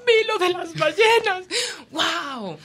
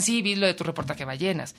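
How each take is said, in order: First: High, loud, near tears; joyful. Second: Said in the usual way. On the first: Retold or imitated. Strangers telling her of the whales, high tearful joy. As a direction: say it overflowing with joy. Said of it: "sino que me decían". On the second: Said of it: "No, no me decían".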